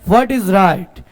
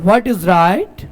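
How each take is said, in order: No difference in how they are said.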